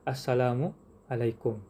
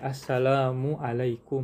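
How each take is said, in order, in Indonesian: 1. Kata-katanya terpisah dengan jeda di antaranya. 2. Kata-katanya menyatu tanpa jeda sama sekali. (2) "harus berbarengan"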